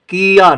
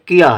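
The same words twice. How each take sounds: First: The first vowel is drawn out long. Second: The first vowel is kept short. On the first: The speaker calls it wrong. "किया नहीं है" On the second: The speaker calls it right. "किया है, तो किया के लिए छोटी की मात्रा रहेगी"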